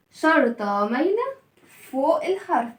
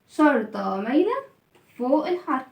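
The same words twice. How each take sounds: The two takes are said the same way.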